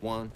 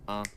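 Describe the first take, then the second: First: The word starts with a clear w sound. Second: The word is said as 'un' without w.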